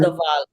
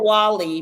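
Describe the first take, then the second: First: The word begins with a V sound. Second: The word begins with a W sound. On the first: The speaker calls it right. "it pronounces as a V" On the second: The speaker calls it wrong. "it's spelled the Wali"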